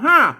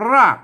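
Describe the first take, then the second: First: The word begins with an h sound. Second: The word begins with an r sound. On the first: This is the Lanna reading. "อันภาษาละนามันออกเสียงว่าหากนะ" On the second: This is the standard Thai reading. "ภาษาไทยมันอ่านว่ารากนะครับ"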